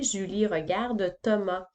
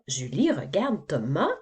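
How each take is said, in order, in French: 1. La voix descend à la fin, comme pour une affirmation. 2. La voix monte à la fin, comme pour une question. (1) "je ne la dirais pas comme ça" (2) "je suis en train de poser une question"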